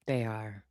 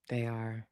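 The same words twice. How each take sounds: The two takes are said the same way.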